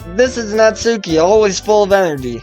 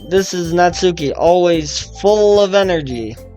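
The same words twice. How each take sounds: First: It is said in a plain, sincere tone. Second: It is said in a mocking, sarcastic tone. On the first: The speaker calls it wrong. "I should have said that sarcastically" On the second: The speaker calls it right. "let me try again"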